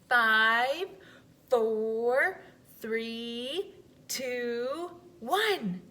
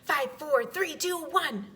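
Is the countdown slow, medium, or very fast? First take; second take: slow; very fast. First: The countdown is at a slower pace. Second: The countdown is very fast.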